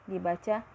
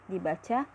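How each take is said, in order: Both takes have the same delivery.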